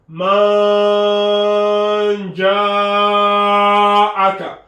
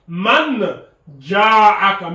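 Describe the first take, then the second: First: The n sound is hidden and softly nasalized. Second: The n sound is pronounced fully and clearly. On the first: The speaker calls it right. "on dissimule le noun sakina. On ne prononce pas clairement le noun sakina" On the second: The speaker calls it wrong. "on ne dit pas man ja'aka"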